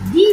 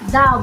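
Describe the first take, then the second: First: The word ends in a long 'ee' vowel. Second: The word ends in a short 'uh' vowel. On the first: The next word starts with a vowel sound. "পরবর্তী ওয়ার্ডটি যদি vowel দিয়ে শুরু হয়... সেক্ষেত্রে আমরা দি বলবো" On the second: The next word starts with a consonant sound. "পরবর্তী ওয়ার্ডটি যদি কনসোনেন্ট হয়, তাহলে আমরা দা বলবো"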